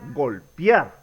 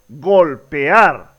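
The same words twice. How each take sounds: First: The final vowels are merged into one syllable. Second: The final vowels are split into two syllables. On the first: The speaker calls it wrong. "no es adecuado pronunciar" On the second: The speaker calls it right. "es adecuado pronunciar"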